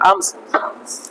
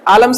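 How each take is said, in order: First: The L sound is silent in the word. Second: The L sound is pronounced in the word. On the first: The speaker calls it right. "ये silent है" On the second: The speaker calls it wrong. "आलम्स नहीं"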